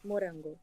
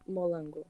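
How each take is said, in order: First: The middle consonant is an R sound. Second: The middle consonant is an L sound. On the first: The speaker calls it right. "strawberry in Portuguese is morango" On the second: The speaker calls it wrong. "I couldn't say the R sound, so I just said molango"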